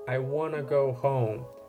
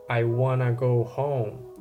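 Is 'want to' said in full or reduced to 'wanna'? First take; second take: reduced; reduced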